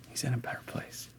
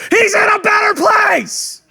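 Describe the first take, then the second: First: Hushed condolence; gentle whisper. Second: High, slow, tactless bellow; comic yell. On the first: Comforting a mourner by the casket, softly whispered. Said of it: "A whisper is way better". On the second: Mourner comforted by the casket, absurdly shouted. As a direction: shout condolences at full blast. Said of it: "You don't put your arm around them and be like". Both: Acted.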